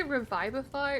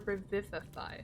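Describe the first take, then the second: First: "Revivify" with VIVE rhyming with five; long-i pronunciation. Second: "Revivify" with VIV as in the name Viv; short-i pronunciation. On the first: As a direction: say the middle of "Revivify" as VYVE. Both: Shown as a demonstration. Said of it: "like the name Viv".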